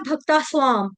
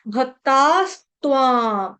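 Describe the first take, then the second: First: "भक्ता स्वाम" run together without the t; common mispronunciation. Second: "भक्तास्त्वां" slow, with both s and t sounded; broken up slowly. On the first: Teacher showing students the mistake, "भक्ता स्वाम" without t. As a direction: drop the t, bhakta-svaam. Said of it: "गलती से बोला जाता है". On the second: Teacher showing the right form, slow split "भक्तास्त्वां". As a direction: split it bhak-taas, tvaam, long vowels. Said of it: "तोड़ तोड़ के पढ़ा दिया". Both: Shown as a demonstration.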